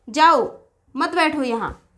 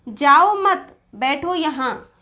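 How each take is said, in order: First: The pause comes after 'jao'. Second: The pause comes after 'mat'.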